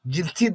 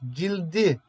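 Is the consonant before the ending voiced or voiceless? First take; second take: voiceless; voiced. First: The consonant before the ending is a voiceless t. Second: The consonant before the ending is a voiced d. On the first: The speaker calls it wrong. "Cilti demezsin değil mi?" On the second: The speaker calls it right. "T'nin burada D'ye yumuşadığını görüyorsun"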